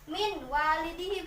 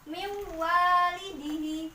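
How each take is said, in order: First: The n has no held nasal hum. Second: The n is held with a nasal hum. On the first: The speaker calls it wrong. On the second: The speaker calls it right. "membacanya itu di dengung"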